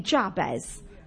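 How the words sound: It is said in a Llanelli Welsh accent.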